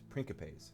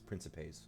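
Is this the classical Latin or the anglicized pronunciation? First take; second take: classical Latin; anglicized. First: It uses the classical Latin pronunciation. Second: It uses an anglicized pronunciation. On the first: "the classical Latin way of, of pronouncing that is principes" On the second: "although the game says principes"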